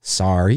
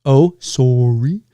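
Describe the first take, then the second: First: "sorry" said low as SAR-ee; low American "sorry" with open AH; American pronunciation. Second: Slow Canadian "sorry", long SORE-ee; leisurely Canadian SORE-ee; Canadian pronunciation. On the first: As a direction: say "sorry" as if spelt SARRY. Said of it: "You guys say it like". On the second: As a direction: draw out the round O in "sorry". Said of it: "we say sorry". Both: Shown as a demonstration.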